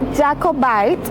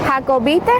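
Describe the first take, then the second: First: It is said with English letter sounds. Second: It is said with Spanish letter sounds. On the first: The speaker calls it right. "en inglés se pronuncia Jacobite" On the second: The speaker calls it wrong. "en español se escribe como Jacob"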